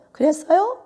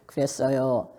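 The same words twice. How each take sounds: First: High, lifted, rising question; lively high-pitched reply. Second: Low, sinking, falling delivery; subdued low-pitched reply. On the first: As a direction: lift the voice right up at the end. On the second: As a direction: drop the voice and let it fall. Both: Shown as a demonstration. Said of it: "틀리들 하는 거지".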